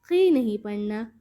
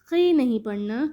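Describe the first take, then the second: The two takes are said the same way.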